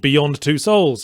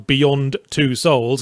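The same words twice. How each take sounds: First: The words run together with no pause. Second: A short pause comes after 'Beyond'. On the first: It means more than two souls. "as in more than two souls" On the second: It names the game's title. "you have to mark the colon with a little pause"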